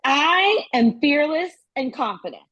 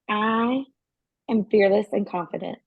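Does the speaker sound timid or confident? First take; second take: confident; timid. First: It is said boldly, with confidence and presence. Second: It is said timidly, without taking up space.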